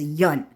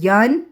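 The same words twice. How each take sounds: First: "Yun" with a low, falling tone; Vietnamese accent mark. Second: "Yun" with a rising tone; Vietnamese tone contrast. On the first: Showing viewers the marked word, "Yun" said low and falling. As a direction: drop "Yun" down short. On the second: Explaining the accent mark to viewers, "Yun" said rising. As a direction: say "Yun" lifting upward at the end. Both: Shown as a demonstration. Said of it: "That little accent mark is Yun".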